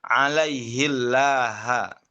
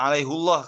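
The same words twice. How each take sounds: First: Alaihillaha slow, with "hi" and a thinned Allah; Syu'bah with kasrah. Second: Alaihullah said with "hu", rounded vowel; Hafs with damma. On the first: Teacher models Syu'bah's reading of Al-Fath. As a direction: read "hil" with kasrah, drawn out. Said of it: "dengan kasroh". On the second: Teacher recalls the Hafs reading in Al-Fath. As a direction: round the "hu" before Allah. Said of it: "dengan domah kan". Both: Shown as a demonstration.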